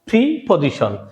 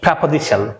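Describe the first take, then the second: First: The first syllable has an 'ee'-like vowel. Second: The first syllable has an 'eh'-like vowel. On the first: The speaker calls it wrong. "এটাকে আমরা উচ্চারণ করি প্রিপজিশন" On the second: The speaker calls it right. "এর শুদ্ধ উচ্চারণ হবে প্রেপজিশন"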